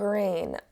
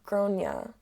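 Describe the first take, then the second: First: The name is said as one syllable, rhyming with rain. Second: The name is said with several syllables, starting 'gron'. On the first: This is how the mother says it. "the mother's pronouncing her own child's name wrong" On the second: This is how it is usually said in Ireland. "in Ireland they typically pronounce it like Gronia"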